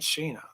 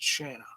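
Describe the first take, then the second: First: The first vowel sounds like 'ay'. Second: The first vowel sounds like 'ah'. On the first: The speaker calls it wrong. "It's not Shayna. There's no A I in there" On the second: The speaker calls it right. "It's just Shanna"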